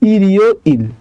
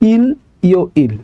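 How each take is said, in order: First: The final consonant links into the next syllable. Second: Each syllable is read separately without linking. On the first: The speaker calls it right. "তাহলে এটা উচ্চারণটা কি হবে? ইরিও ইল" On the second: The speaker calls it wrong. "যেমন আমরা পড়েছিলাম ইল, ইও, ইল ... কিন্তু উচ্চারণটা এমন হবে না"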